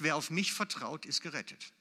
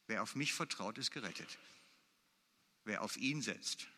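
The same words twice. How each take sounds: First: Said in the usual way. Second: Much softer, letting the verse sink in; a preacher softly echoing the promise he just read; soft, reflective repeat. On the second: Acted. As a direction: say it again quietly to yourself.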